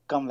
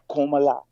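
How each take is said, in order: First: The name is said with two syllables. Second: The name is said with three syllables. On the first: The speaker calls it right. "Kamla is the correct pronunciation" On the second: The speaker calls it wrong. "It's not Komala"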